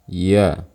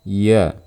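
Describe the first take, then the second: The two takes are said the same way.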